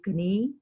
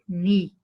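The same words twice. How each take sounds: First: The word begins with a k sound. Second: The word begins with an n sound. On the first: The speaker calls it wrong. "We will not read knee" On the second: The speaker calls it right. "we will read knee, K is silent"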